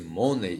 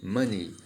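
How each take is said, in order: First: The word is read as it is spelled. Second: The word is said with English pronunciation. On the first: The speaker calls it wrong. "muitas pessoas têm o costume de pronunciar dessa maneira" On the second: The speaker calls it right. "Lembre-se que a pronúncia aqui é money"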